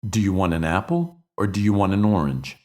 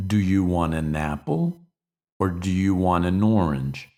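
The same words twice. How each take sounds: First: Said in the usual way. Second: "Do you want an apple" said as separate slow chunks; slower, spaced phrases. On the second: Shown as a demonstration. Teacher repeating the sentence in slow, separated chunks.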